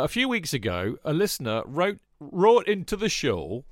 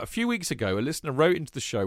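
First: It is read in a Yorkshire accent. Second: It is read in his normal accent.

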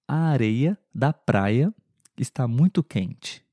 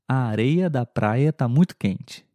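First: It is said at a normal speed. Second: It is said a little faster.

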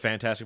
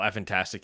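First: The name starts directly with 'fan'. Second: The name starts with an extra 'eff' syllable. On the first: "I would go with fantastic" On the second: "I want to say effantastic"

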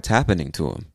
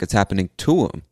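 First: The word 'happening' is stressed. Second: The word 'to' is stressed.

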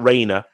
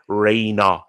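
First: The name is said with a non-Manchester pronunciation. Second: The name is said with a Manchester pronunciation. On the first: The speaker calls it wrong. "not Rayner" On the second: The speaker calls it right. "because that's how we say it in Manchester"

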